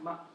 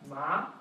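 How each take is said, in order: First: The syllable is short, light and unemphasized. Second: The pitch rises from middle to high. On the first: "when you don't really emphasize a syllable" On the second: "The second one rises like a question"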